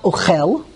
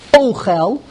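First: "Ochel" said o-KHEL, weight on the end; stress on last syllable. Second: "Ochel" said O-khel, weight on the O; stress on first syllable. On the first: Teacher rejecting a reading, "Ochel" stressed at the end. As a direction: push the stress onto the "chel" of "Ochel". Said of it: "It's not Ochel". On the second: Teacher explaining the noun, "Ochel" stressed at the front. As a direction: punch the opening O of "Ochel". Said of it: "the emphasis is on the Aleph". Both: Shown as a demonstration.

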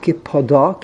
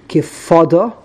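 First: Kipada with the emphasis on the final DA; stress on last syllable. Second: Kifada with the emphasis at the front of the word; stress on first syllable. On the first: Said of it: "emphasis is on the beginning ... not Kipada". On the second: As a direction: lean on the start of Kifada, not the last syllable. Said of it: "The emphasis is on the beginning of the word". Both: Shown as a demonstration.

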